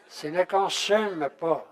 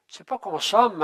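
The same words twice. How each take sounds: First: Careful consume, slowly; correct consume. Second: Says consomme instead of consume, loud; the wrong word consomme, louder. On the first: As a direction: say consume, not consomme, slow. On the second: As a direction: mauvaise prononciation consomme. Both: Shown as a demonstration. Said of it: "Il faut le dire comme il faut".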